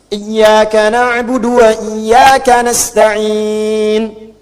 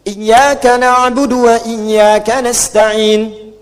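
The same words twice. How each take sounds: First: The long vowel near the end is held longer. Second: The long vowel near the end is held briefly. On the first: "Bisa empat harakat mutawassit" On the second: "Bisa dua. Kalau mau pendek, hadar"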